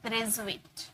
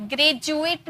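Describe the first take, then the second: First: ग्रेजुएट with a z, "grez-oo-et"; z sound. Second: ग्रेजुएट with a hard j, "gre-joo-et"; ग्रेजुएट with English j; wrong j sound. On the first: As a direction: softly model ग्रेजुएट with a buzzed z. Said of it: "ये सब ना ज का sound आता है". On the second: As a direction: demonstrate the mistaken j in ग्रेजुएट. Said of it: "ग्रेजुएट नहीं". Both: Shown as a demonstration.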